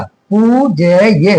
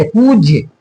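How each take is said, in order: First: पूज्य slowly, stretched as "pooo-ja-ya"; long-vowel demo. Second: Said in the usual way. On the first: Shown as a demonstration. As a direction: draw out the long oo at the start of पूज्य. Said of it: "पू बड़ा आएगा".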